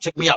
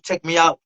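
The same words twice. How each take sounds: First: It is said quickly and urgently. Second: It is said slower and calmer.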